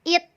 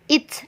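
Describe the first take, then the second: First: The final t is soft, with no burst. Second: The final t is released with a clear burst. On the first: The speaker calls it wrong. "bukan it" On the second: The speaker calls it right. "diletupkan it"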